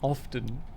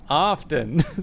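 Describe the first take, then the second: First: It is said in a British accent. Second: It is said in an American accent. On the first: "the British one do often" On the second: "and then the American often"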